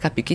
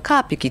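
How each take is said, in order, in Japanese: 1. 最初の母音は短く保ちます。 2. 最初の母音は長く伸ばします。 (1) "日本語ですとやっぱりカピキのが言いやすいんで" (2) "正式名にはあのカーピキっていう発音になるんですけど"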